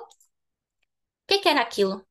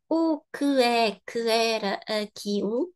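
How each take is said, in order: First: Vowels are dropped and sounds run together. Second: Every syllable is pronounced separately and fully. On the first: The speaker calls it right. "To sound natural with a good flow and rhythm, we are going to eat" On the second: The speaker calls it wrong. "we don't say o que é que era aquilo, because it sounds robotic"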